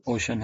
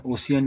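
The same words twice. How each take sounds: First: ओशन in two syllables, o-shan; correct pronunciation. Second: ओशियन in three syllables, o-si-yan; wrong pronunciation. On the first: Teacher giving students the right ओशन. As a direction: keep ओशन short, o-shun. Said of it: "ओशन है". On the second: Teacher warning students against saying ओशियन. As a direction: split ओशियन into o-see-an. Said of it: "ओशियन नहीं है". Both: Shown as a demonstration.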